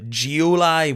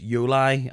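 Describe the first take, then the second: First: The name begins with a J sound. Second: The name begins with a Y sound. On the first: The speaker calls it wrong. "a wee bit too uh keen on the Geoli" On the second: The speaker calls it right. "when it was Yoli"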